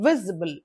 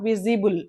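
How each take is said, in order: First: The stress is on the first syllable. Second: The stress is not on the first syllable. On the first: The speaker calls it right. "Word stress is on the first one" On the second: The speaker calls it wrong. "not visible"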